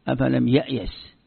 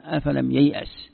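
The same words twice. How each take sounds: First: "يأيس" said ya'yas, hamza before y; slow recitation of "يأيس" as ya'yas; swapped letters. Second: "ييأس" said yay'as, y before hamza; slow recitation of "ييأس" as yay'as; letter order. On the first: Teacher shows swapped letters, "يأيس" as ya'yas. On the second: Teacher shows letter order, "ييأس" as yay'as. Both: Shown as a demonstration. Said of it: "تقديم حرف على حرف".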